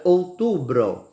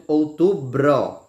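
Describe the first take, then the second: First: Said in the usual way. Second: Outubro said slowly, each syllable clear; slow spelled-out word. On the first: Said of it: "a palavra outubro". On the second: Shown as a demonstration. Teacher showing students how the word sounds: slow and careful. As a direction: stretch out Outubro so every sound is heard. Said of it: "nós temos o bro".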